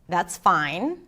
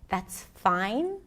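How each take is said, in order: First: It sounds unsatisfied and a little sarcastic. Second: It sounds uncertain, confused and unsure. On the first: The speaker is not really satisfied. "I was unsatisfied, a little sarcastic maybe" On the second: The speaker is not sure it is acceptable. "Uncertain, confused, unsure"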